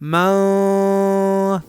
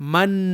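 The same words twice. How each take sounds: First: The final n is hidden as a nasal sound. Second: The final n is pronounced clearly and fully. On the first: "मन में इख्फा के लिए जरूरी होगा कि इसे बाद वाले लफ्ज फ़क़ुलत के साथ मिलाकर पढ़ा जाए" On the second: "मन पढ़कर रुक जाए तो फिर इस सूरत में इसमें इख्फा नहीं बल्कि इजहार होगा"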